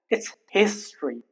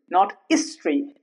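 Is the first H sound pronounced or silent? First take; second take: pronounced; silent. First: The H at the start is pronounced. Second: The H at the start is silent. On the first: The speaker calls it right. "exceptions to the rule is history" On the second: The speaker calls it wrong. "It's wrong if you say that"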